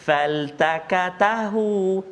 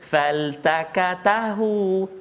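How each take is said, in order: First: Every consonant is said thin and light. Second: Every consonant is said thin and light.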